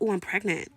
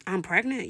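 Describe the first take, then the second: First: Acted "oh" of realisation, falling at the end; dawning realisation. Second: Rising, questioning echo of the news; disbelieving question. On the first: Patient taking in blood test news, dawning realisation. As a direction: let the news land as a statement. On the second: Retold or imitated. Patient querying her blood test result, disbelieving question. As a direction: ask it back in mild disbelief.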